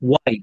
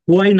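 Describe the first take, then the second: First: The word starts with a plain w sound. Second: The word starts with an audible h sound. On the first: The speaker calls it right. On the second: The speaker calls it wrong. "হুয়াই না"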